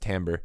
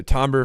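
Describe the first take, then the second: First: "timbre" in its other pronunciation, with a different first vowel; alternative pronunciation. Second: Said in the usual way. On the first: Shown as a demonstration. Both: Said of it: "sometimes pronounced timbre".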